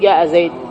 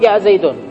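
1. تنتهي الكلمة الأخيرة بحرف ساكن. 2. تنتهي الكلمة الأخيرة بحركة قصيرة. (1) "وإنما يقفون على الساكن" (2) "العرب ما تقول جاء زيد"

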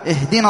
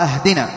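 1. تبدأ الكلمة بالصوت 'i'. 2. تبدأ الكلمة بالصوت 'a'. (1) "بكسر همزة الوصل" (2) "أهدنا بالفتح"

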